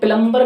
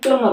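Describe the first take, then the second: First: A b sound is heard after the m. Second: No b sound is heard after the m. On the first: The speaker calls it wrong. "इसका प्लम्बर नहीं" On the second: The speaker calls it right. "प्लमर होता है"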